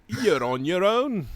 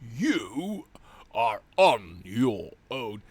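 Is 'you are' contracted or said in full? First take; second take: contracted; full. First: The words 'you are' are contracted. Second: The words 'you are' are said in full.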